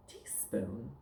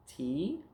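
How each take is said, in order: First: Said in the usual way. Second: "Teaspoon" split as rising "tea", pause, "spoon"; word chopped up. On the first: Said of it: "now we're gonna take words apart". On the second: Shown as a demonstration. Teacher taking words apart for pupil, "Teaspoon" in two pieces. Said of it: "We're gonna chop 'em up".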